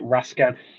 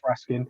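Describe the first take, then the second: First: The last syllable sounds like 'kan'. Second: The last syllable sounds like 'kin'. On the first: The speaker calls it wrong. "people pronounce it Raskan" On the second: The speaker calls it right. "as far as I know, it's Raskin"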